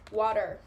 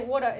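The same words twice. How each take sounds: First: It is said with an American accent. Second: It is said with an Australian accent. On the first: "instead of water" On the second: "they would say water"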